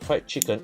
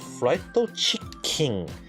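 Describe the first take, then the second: First: It is said with English pronunciation. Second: It is said with Japanese pronunciation.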